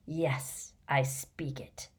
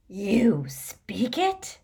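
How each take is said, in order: First: Low, soft, slow reply; quiet calm answer. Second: Slow, higher, rising disbelief; astonished question. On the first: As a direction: answer softly, fully in control. Riddle calmly answers the astonished man. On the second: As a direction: ask it slowly, amazed. Man astonished Riddle speaks Parseltongue. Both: A narrator's reading.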